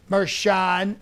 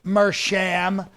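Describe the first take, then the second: First: "Mershan" ending in a "shahn" sound with N; alternative pronunciation. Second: "Mersham" ending in a "sham" sound with M; trying a pronunciation. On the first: Host guessing the judge's name, trying "Mershan" with final N. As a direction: try "Mershan", open vowel and final N. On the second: Host guessing the judge's name, trying "Mersham" with final M. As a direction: try "Mersham", closing the lips on the end. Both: Acted. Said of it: "however you pronounce his name".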